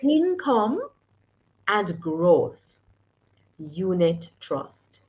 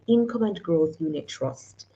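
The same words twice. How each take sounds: First: It is said slowly and deliberately. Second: It is said at normal speed.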